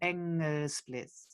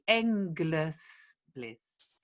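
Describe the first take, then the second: First: The g is soft or barely sounded. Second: The g is sounded strongly. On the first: "I've heard versions where they go" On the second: "So we do say the g here"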